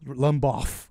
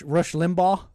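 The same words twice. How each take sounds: First: Limbaugh said as "Lum-boff"; weird pronunciation. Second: Said in the usual way. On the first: Real, not acted. Host unsure how to say the name, Limbaugh mispronounced as "Lumboff". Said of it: "I'm saying it weird". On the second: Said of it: "How do you say it?".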